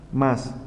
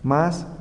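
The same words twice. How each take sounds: First: Más dropped in a falling tone; más let fall, closing the pair; unaccented form. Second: MÁS lifted in a rising tone; MÁS held up, first of a contrasting pair; accented form. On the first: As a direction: say más as the unaccented word, pitch going down. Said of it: "No acentúe más". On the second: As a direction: say MÁS as the accented word, pitch going up. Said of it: "Acentúa más". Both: Shown as a demonstration.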